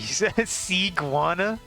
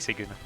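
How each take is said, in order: First: The ending sounds like 'gwana', as in iguana. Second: The ending sounds like 'guna', without a 'wa' sound. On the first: The speaker calls it wrong. "streamers that call me Siguana" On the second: The speaker calls it right. "I'm glad I got that right the first time"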